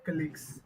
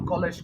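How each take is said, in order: First: The word ends in a 'gz' sound. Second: The word ends in a soft 'j' sound. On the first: The speaker calls it right. "it's colleagues" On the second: The speaker calls it wrong. "you kept saying uh, college, college, but it's not college"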